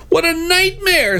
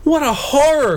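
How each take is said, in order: First: Hammed-up high-pitched panic; scream. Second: High-pitched theatrical horror; hammed-up high wail of horror; horrified cry. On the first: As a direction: shriek in storybook horror. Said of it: "screamed the Blue Knight". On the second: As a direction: cry out in storybook dismay. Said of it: "cried the Yellow Knight". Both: A narrator's reading.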